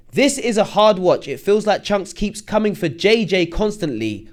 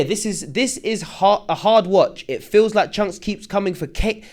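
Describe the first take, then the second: First: Slow, deliberate second read; careful reread. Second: Said in the usual way. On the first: Shown as a demonstration. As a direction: read it again slowly and clearly. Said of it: "Let me go again". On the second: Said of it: "I can't even read. Let me go again".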